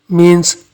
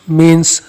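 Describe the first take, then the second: Both takes have the same delivery.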